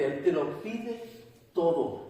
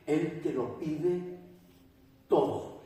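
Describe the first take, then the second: First: Stronger take, todo pushed out and falling. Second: Slow and hushed, the word todo breathed out unvoiced; slow hushed emphasis. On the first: Preacher drives home the demand: emphatic todo. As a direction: press on te and land todo firmly. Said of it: "preacher repeats, louder". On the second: Preacher hushes the congregation: slow, whispered todo. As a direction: let todo fall away almost whispered. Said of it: "preacher slows, stresses todo". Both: Shown as a demonstration.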